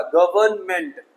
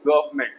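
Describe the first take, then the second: First: Slow गवर्नमेंट as "guv-urn-ment"; गवर्नमेंट slowly, middle n clearly there; wrong, middle n sounded. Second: Quick गवर्नमेंट as "guv-ment"; गवर्नमेंट in two syllables; silent n. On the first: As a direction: draw out गवर्नमेंट with the n voiced. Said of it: "नहीं होगा ये". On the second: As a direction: skip the middle n in गवर्नमेंट. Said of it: "एन silent करेंगे". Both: Shown as a demonstration.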